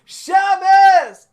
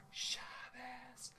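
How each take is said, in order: First: High, loud joyful shout; full shout. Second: Soft whispered echo. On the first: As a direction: shout it to the whole house. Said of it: "here we go. It goes like this". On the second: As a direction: lean in and whisper it. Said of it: "I'm doing the whisper voices". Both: Shown as a demonstration.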